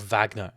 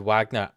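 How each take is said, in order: First: The name begins with a V sound. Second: The name begins with a W sound. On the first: The speaker calls it right. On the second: The speaker calls it wrong.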